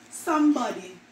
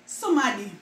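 First: Said in the usual way. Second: "somebody" said as somadi; Jamaican pronunciation. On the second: Shown as a demonstration. Showing viewers the Jamaican "somebody", somadi. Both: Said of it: "We say somebody".

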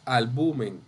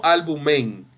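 First: "albumen" stressed on the middle syllable, al-BU-men; teacher's model of "albumen" as al-BU-men; correct stress. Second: "albumen" with the stress thrown onto the last syllable, al-bu-MEN; mis-stress "albumen" on MEN; slow counterexample, "albumen" as al-bu-MEN; wrong stress. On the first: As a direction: land on BU in "albumen". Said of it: "es albumen". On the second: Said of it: "Ven, no albumen". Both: Shown as a demonstration.

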